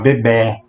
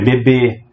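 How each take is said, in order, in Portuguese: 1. A vogal final é pronunciada com som aberto. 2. A vogal final é pronunciada com som fechado. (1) "Se tivesse um som agudo, seria um tracinho... e abriria o som. Ficar bebê" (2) "fecha o som da palavra"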